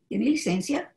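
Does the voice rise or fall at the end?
rise. It is said as a question, rising at the end.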